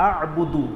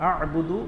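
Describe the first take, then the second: No difference in how they are said.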